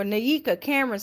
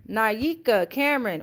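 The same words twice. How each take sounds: First: Naika said "nuh-YEE-kuh"; alternative pronunciation. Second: Naika said "nigh-EE-kuh"; first pronunciation guess. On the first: Host correcting a viewer's name, Naika as "nuh-YEE-kuh". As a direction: reduce the first syllable of Naika to "nuh". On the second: Host reading a viewer's name, Naika as "nigh-EE-kuh". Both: Shown as a demonstration. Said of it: "or Naika Cameron".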